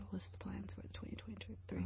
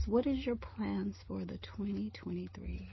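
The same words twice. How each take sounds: First: Much softer, breathy whisper; whispered repeat. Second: Said in the usual way. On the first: Real, not acted. Asks question then whispers repeat.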